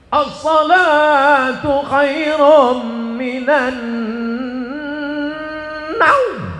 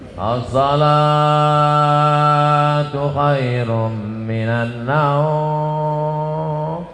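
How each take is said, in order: First: It is said with great energy and spirit. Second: It is said flatly, without much energy.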